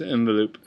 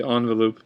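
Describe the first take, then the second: First: Said in the usual way. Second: "envelope" starting "on", "ON-velope"; others' pronunciation. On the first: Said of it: "but it's envelope". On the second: Shown as a demonstration. Vlogger showing how others say it, ON pronunciation. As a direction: begin "envelope" with an AH sound. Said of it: "a lot of people say".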